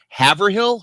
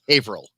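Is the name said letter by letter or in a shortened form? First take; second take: letter by letter; shortened. First: Every written part of the name is sounded out. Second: The name is said in a shortened local form. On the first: The speaker calls it wrong. "if you pronounce it the way it's spelled" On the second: The speaker calls it right. "It's actually pronounced"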